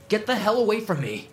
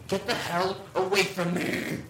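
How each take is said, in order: First: The voice is a natural, undistorted yell. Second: The same voice sounds heavily distorted. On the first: The narrator shouts it at the creature. "I yelled" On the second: The creature mimics the narrator's voice. "again in my voice, but much more distorted"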